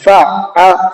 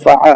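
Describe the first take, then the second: First: The middle consonant is doubled with a catch. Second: The middle consonant is single, with no catch. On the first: The speaker calls it right. "आइन पर रुक करके पढ़ना है" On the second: The speaker calls it wrong. "यहाँ पर लोग अक्सर ये गलती करते हैं"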